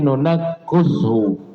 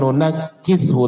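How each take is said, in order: First: The vowel after the k is a u sound. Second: The vowel after the k is an i sound. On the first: This is an alternative recognized reading of the verse. "kafnya tersebut bukan kasrah tapi dhammah" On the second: This is the usual reading of the verse. "tadinya kasrah"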